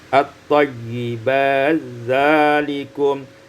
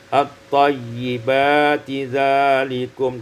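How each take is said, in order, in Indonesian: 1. Bunyi t menyatu ke dalam dh. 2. Bunyi t diucapkan terpisah sebelum dh.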